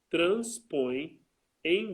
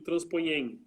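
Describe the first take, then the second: First: The two words are kept as separate syllables. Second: The two words are merged into one syllable. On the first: The speaker calls it right. "aqui eu não posso elidir" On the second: The speaker calls it wrong. "Se você junta tudo"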